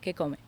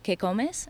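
First: The final S of the last word is dropped. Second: The final S of the last word is sounded. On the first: "they eat their S's, which means that they don't say them" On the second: "instead of que comes"

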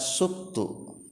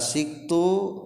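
First: The first vowel is u. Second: The first vowel is i. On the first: "bisa dibaca subtu" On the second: "kalawan tilu pembacaan cara maca sinna. Bisa dibaca siktu"

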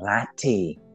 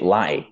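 First: The T is forced out with effort. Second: The T is dropped, Scottish style.

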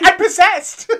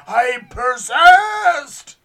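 First: It is said in his normal voice. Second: It is said in a put-on spooky voice.

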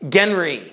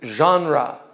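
First: It is sounded out as the English spelling suggests. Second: It is pronounced like the original French word. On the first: The speaker calls it wrong. "if you read English, you want to say genre" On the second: The speaker calls it right. "but it's genre"

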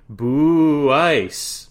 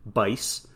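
First: The name is split into two syllables. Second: The name is said as one syllable. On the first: The speaker calls it wrong. "that is not the correct pronunciation of his name" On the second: The speaker calls it right. "did have the correct pronunciation"

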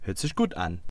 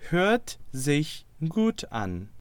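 First: It is said very fast. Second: It is said at a normal pace.

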